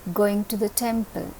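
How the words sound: The pitch falls at the end. It states that someone is going to the temple. "if you use a falling tone, it becomes a declaration or a statement"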